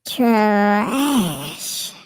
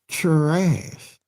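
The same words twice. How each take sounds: First: It is said in an altered, put-on voice. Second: It is said in his normal voice.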